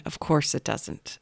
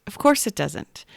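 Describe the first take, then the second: First: Whispered under the breath, defeated; exasperated whisper. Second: Said in the usual way. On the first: Retold or imitated. Mother stuck at a locked door, thinking to herself, whispered. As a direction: breathe it out to yourself, voiceless. Code fails, exasperated inner thought.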